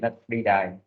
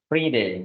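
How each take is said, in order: First: The vowel in the second word sounds like 'eye'. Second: The vowel in the second word sounds like 'ay'. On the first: The speaker calls it wrong. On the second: The speaker calls it right.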